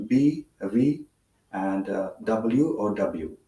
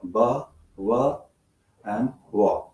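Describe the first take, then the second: First: B, V, W said as plain alphabet letter names; name each letter as in the alphabet. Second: B, W, W said as bare sounds from the throat; letter sounds. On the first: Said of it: "we pronounce them as". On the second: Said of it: "I'm making the sound of each of them as". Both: Shown as a demonstration.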